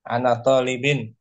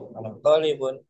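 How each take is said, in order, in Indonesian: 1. Kata terakhir berakhir dengan bunyi 'in'. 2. Kata terakhir berakhir dengan bunyi 'un'. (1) "Dimajrur, dikasrohkan" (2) "Marfu bidom"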